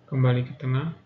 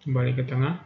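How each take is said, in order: Both takes have the same delivery.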